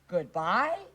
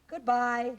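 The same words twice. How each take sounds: First: It is said unsure, like a question. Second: It is said calmly and nicely, falling.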